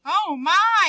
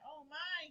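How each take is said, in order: First: High, loud breathless gasp; sharp surprised gasp. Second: Said in the usual way. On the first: Shown as a demonstration. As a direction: gasp it out in shock. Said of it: "he gasped". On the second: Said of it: "he said".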